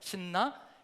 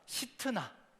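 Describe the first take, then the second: First: It is said as 'sinna' with no t sound. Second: It is said as 'sitna' with a t sound.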